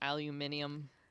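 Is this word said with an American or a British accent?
British. It is said with a British pronunciation.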